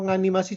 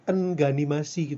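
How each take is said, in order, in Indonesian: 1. Kata itu langsung diawali dengan bunyi ng. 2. Sebuah vokal ditambahkan sebelum bunyi ng.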